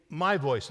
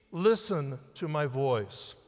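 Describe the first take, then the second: First: "my" stands out over "voice"; stress on my. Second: "listen" drawn out and most prominent; stress on listen. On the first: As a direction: put the weight on "my", let "voice" fall. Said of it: "thought the emphasis on that should be". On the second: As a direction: slowly lean on "listen", then let "to my voice" follow. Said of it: "The emphasis is on the first word". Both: Shown as a demonstration.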